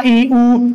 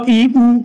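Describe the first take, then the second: First: ई, उ each held long; lengthened sounds on ई, उ; long vowels. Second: ई, उ each said short; quick short sounds on ई, उ; short vowels. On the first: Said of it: "हे दीर्घ स्वर आहेत". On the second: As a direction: give ई and उ as brief separate vowels. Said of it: "ऱ्हस्व स्वर". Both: Shown as a demonstration.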